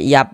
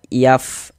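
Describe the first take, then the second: First: The word ends with a closed p sound. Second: The word ends with a breathy f sound. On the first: The speaker calls it wrong. "jangan dibaca yap" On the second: The speaker calls it right. "ini kita baca yaf"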